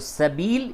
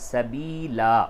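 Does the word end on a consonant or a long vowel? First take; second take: consonant; long vowel. First: The word ends on the final l consonant. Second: The word ends with a long a vowel. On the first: The speaker calls it wrong. "तो सबील इसको नहीं बोलेंगे" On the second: The speaker calls it right. "बल्कि सबीला बोला जाएगा"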